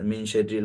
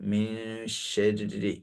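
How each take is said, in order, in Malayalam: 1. n പൂർണ്ണമായും വ്യക്തമായും ഉച്ചരിക്കുന്നു. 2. n ഒരു നീണ്ട മൂക്കിലെ മൂളലായി മാറുന്നു. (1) "അങ്ങനൊന്നും ഓതരുത്" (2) "നല്ല മൂക്കൊണ്ടുള്ള ശബ്ദം കൊടുക്കുക"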